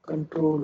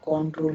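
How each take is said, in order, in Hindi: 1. पहला स्वर 'up' जैसा बोला जाता है। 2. पहला स्वर 'on' जैसा बोला जाता है। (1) "कंट्रोल होता है" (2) "कंट्रोल नहीं होता"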